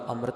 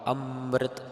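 First: The word is said loosely, with soft consonants. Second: The word is said tightly, with pressed consonants. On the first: The speaker calls it wrong. "ਪੋਲਾ ਅੰਮ੍ਰਿਤ ਨਹੀਂ ਕਹਿ ਦੇਣਾ" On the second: The speaker calls it right. "ਕਸ ਕਰਕੇ ਪਾਠ ਅੰਮ੍ਰਿਤ ਇਦਾਂ ਕਰਨਾ ਹੈ"

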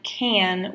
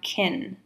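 First: The word has a full, clear vowel. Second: The word has a weak, reduced vowel.

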